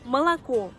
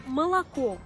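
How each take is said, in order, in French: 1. Les deux premières voyelles se prononcent comme « a ». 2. Les deux premières voyelles se prononcent comme « a ».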